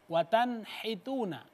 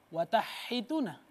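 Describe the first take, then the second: First: The n sound is pronounced clearly before h. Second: The n sound is merged away before h. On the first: The speaker calls it right. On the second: The speaker calls it wrong.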